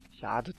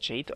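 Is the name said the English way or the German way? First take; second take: German; English. First: The name is pronounced the German way. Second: The name is pronounced the English way. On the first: "aber ich sag da Jade zu" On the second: "Englisch wird man das wahrscheinlich Jade aussprechen"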